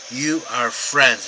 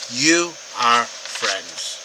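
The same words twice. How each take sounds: First: Slow, weighty "You are friends"; emphatic statement. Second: Very slow "You ... are ... friends", each word set apart; deliberate, word-by-word emphasis on "You are friends"; emphatic YOU. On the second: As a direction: lean on "You", then space out "are friends". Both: Shown as a demonstration. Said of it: "This is emphatic".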